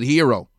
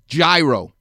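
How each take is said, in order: First: It is said the Greek way, without G. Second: It is said as spelled, starting with G. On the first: "If you're Greek, you can pronounce it hero" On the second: "It's a gyro to me because it has a G-Y-R-O"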